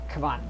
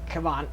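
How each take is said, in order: Both takes have the same delivery.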